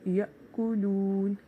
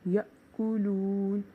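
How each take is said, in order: The two takes are said the same way.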